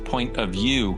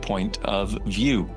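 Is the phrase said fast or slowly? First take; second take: fast; slowly. First: The phrase is said quickly and casually. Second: The phrase is said slowly and deliberately. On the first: It is just an opinion. "people think it's point of view" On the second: It is a place from which one is viewing this. "I say that slowly"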